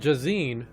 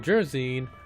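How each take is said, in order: First: The name is said without an R sound. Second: The name is said with an R sound. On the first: "Jazine with an A" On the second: "Jersine, which has an R"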